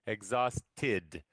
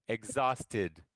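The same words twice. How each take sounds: First: "Exhausted" broken as egg-zaus, tid; teacher's low model of "Exhausted", last syllable set apart; stress on final syllable sound. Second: Said in the usual way. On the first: Shown as a demonstration. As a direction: pause before a crisp "tid" ending in "Exhausted". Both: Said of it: "there's tid".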